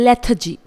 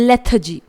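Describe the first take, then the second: No difference in how they are said.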